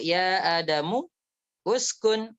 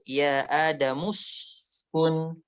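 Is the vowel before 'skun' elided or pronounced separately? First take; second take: pronounced separately; elided. First: The 'u' of uskun is pronounced as separate vowel. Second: The 'u' of uskun is dropped and words linked. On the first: The speaker calls it wrong. "la naqulu ya Adamu uskun" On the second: The speaker calls it right. "walakin naqulu ya Adamuskun"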